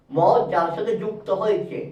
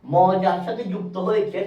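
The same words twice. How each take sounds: The two takes are said the same way.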